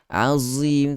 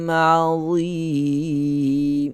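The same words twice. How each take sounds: First: The consonant is a plain z sound. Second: The consonant is made with the tongue between teeth. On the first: The speaker calls it wrong. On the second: The speaker calls it right.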